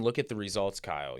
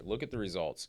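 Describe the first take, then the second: First: Sports announcer. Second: Said in the usual way. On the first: Pretend. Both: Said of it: "I'm sounding like a sports announcer".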